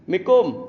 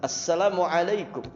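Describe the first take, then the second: First: Only a clipped final fragment of the greeting is said. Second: The full greeting is said with clear vowels. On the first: The greeting is said carelessly. The speaker calls it wrong. "ngucapin salam saja nggak benar" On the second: The greeting is said properly. The speaker calls it right. "lebih fasih, vokalnya jelas"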